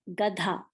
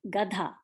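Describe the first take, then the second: The two takes are said the same way.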